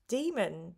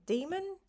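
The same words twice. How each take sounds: First: Said in the usual way. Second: "Demon?" pitched up into a rising question. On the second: Real, not acted. Streamer doubting their own word, questioning "demon?". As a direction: lift "demon" sharply at the end, as if querying it.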